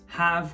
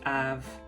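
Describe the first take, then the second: First: The initial H sound is pronounced. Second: The initial H sound is dropped.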